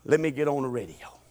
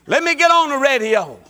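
First: Quiet low line. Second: Bursting out with a laugh; louder, higher, fired up; excited, laughing loud. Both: Acted. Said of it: "Huh, I feel it".

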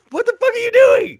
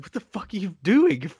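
First: Much higher, louder mock yell; yelled repeat. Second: Lightly voiced angry boss; a hint of Tony snapping into the phone; mock Tony. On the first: Tony shouting into the phone at Paulie, mock yell. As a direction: shout it again as if the line keeps cutting out. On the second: Tony yelling at his crew over a bad line, mild mock anger. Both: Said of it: "he's like".

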